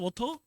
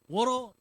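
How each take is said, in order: First: The middle consonant is a clear, hard t sound. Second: The middle consonant is a soft r-like flap. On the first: "우리는 그냥 워터잖아요" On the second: "이런 알 발음이 저절로 돼요"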